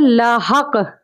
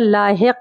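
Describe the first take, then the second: First: The vowel after h is a short a. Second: The vowel after h is a short i. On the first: The speaker calls it wrong. "लाहक यानी हे के ऊपर ज़बर है" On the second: The speaker calls it right. "सही तलफ़्फ़ुज़ जो होगा वो होगा लाहिक"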